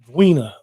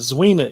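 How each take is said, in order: First: The name begins with a hard V-like sound. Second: The name begins with a Z sound. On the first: The speaker calls it right. "like a V, V, like a V sound" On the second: The speaker calls it wrong. "It's not Zwina"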